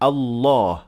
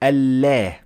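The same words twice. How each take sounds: First: The L is heavy, said with a full mouth. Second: The L is light, said with an empty mouth. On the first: The speaker calls it right. "we make the lam full mouth" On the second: The speaker calls it wrong. "not Allah"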